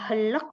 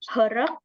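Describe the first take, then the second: First: An L sound is heard before the final K. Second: An R sound is heard before the final K. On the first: "bukan juga helek, nggak pakai L gitu ya" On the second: "Jadi bukan herek"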